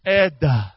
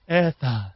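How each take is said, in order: First: The word begins with an 'eh' sound. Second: The word begins with an 'eh' sound.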